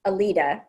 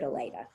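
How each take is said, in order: First: "Alida" said uh-LEE-da, with a long ee; other pronunciation. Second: "Aleda" said uh-LAY-da, with an ay sound; family pronunciation. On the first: Sister showing how some people say the name, a-LEE-da. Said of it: "some people pronounce it Alida". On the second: Sister giving her parents' way to say the name, a-LAY-da. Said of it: "they always pronounced it Aleda". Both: Shown as a demonstration.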